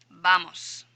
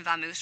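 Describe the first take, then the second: First: Spanish "Vamos", second vowel a pure o. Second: "vamos" said vamoose, with an oo; English "vamos", clear v and oo in the ending. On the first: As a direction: say "Vamos" the Spanish way, BAH-mos. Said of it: "get the English expression vamos from". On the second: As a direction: Anglicize "vamos" to va-MOOSE. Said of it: "English expression vamos". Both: Shown as a demonstration.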